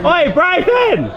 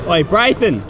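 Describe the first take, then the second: First: Calling out as the voice cracks high; a drawn-out shout that breaks upward. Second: Calling out. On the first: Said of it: "I just had the biggest voice crack". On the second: Calling out to friend at game. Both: Real, not acted.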